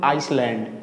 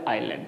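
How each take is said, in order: First: An s sound is pronounced in the middle. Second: No s sound is pronounced in the middle. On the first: The speaker calls it wrong. "इसको बोलते हैं लोग आइसलैंड, ये गलत है" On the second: The speaker calls it right. "ये बोलेंगे आइलैंड"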